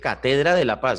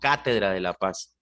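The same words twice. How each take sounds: First: The stress in catedra is on the second syllable. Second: The stress in catedra is on the first syllable. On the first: The speaker calls it wrong. "ahí dice" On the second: The speaker calls it right. "palabra esdrújula cuya tilde debe ir en la antepenúltima sílaba"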